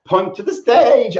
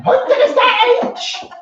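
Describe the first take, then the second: First: Said in the usual way. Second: Very high, slow witchy cackle voice; Wicked Witch voice. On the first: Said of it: "I got Helen's voice in my head". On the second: Retold or imitated. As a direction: do a shrill Wicked Witch of the West. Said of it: "I made her sound like the Witch of the West".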